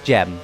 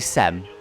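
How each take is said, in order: First: The name begins with a J sound. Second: The name begins with an S sound. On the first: The speaker calls it wrong. "it's Gem apparently, which to me is just wrong" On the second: The speaker calls it right. "in British that was how, probably how you would say that"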